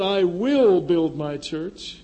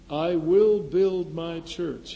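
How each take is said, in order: First: Slow, loud stress on "will"; "will" punched, slow delivery; emphatic will. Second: "will" drawn out and weighted; slow emphasis. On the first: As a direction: drive home "will" in "I will build my church". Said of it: "or he said". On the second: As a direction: stress on "will", slow and firm. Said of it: "And you could emph". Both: Shown as a demonstration.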